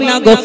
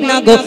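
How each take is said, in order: No difference in how they are said.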